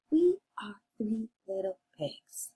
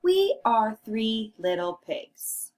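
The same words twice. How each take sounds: First: Hushed read-along voice; whispered echo. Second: Said in the usual way. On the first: Shown as a demonstration. Quiet echo after your turn.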